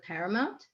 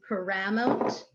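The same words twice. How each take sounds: First: Said in the usual way. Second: "paramount" stressed as pa-RA-mount; wrong word stress. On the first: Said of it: "instead of paramount". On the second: Shown as a demonstration. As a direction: mispronounce "paramount" with the weight on RA. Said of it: "if you say it wrong".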